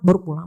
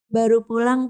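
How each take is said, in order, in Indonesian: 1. Terdengar ketus dan kesal. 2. Terdengar manis dan menggoda. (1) "Jam berapa kan baru pulang" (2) "Kan gajek banget"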